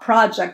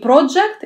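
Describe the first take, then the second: First: The first vowel is an open 'ah' sound. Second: The first vowel is a rounded 'oh' sound. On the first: The speaker calls it right. "а project. Больше к a идет произношение" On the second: The speaker calls it wrong. "не project, не o"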